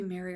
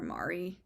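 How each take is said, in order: First: "Mary" with an "air" vowel; MARY pronunciation. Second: "Mari" with an open "ah" vowel; MARI pronunciation. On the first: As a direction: say "Mary" to rhyme with "fairy". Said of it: "supposed to be Mary or Mari". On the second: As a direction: say "Mari" as "MAH-ree". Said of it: "I call her Mari". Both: Shown as a demonstration.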